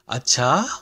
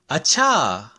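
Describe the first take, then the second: First: It is said in a surprised, questioning tone. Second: It is said in a tone of sudden realization. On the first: It means oh really? "oh really?" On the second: It means oh.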